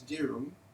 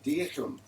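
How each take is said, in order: First: The H sound is not clearly pronounced. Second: The H sound is carefully pronounced. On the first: This is how most people say it. "everybody says dirham for that Islamic silver coin" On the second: This is the careful pronunciation. "he always carefully pronounced the H"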